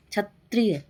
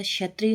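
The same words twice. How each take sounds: First: क्षत्रिय starting with "ch", chhatriy; wrong pronunciation. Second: Said in the usual way. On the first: Shown as a demonstration. Teacher rejecting a mistake, क्षत्रिय said chhatriy. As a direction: begin क्षत्रिय as chha, not sha. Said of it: "नहीं होता". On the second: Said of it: "होता है".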